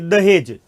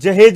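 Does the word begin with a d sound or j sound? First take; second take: d sound; j sound. First: The word begins with a d sound. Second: The word begins with a j sound. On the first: This is the form used in Hindi. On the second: This is the original Arabic form. "ये अरबी में किस रूप में चलता है, जहेज रूप में चलता है"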